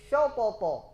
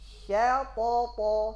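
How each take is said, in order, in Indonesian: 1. Bunyi sh tebal dengan vokal o. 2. Bunyi sh tipis dengan vokal a. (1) "rusak tak shin di sini? Rusak" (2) "Lepaskan dulu sya to to"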